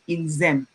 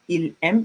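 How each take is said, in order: First: The S of ils links into aiment. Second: The S of ils is silent before aiment. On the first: The speaker calls it right. "It's a liaison" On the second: The speaker calls it wrong. "I can't say ils aiment"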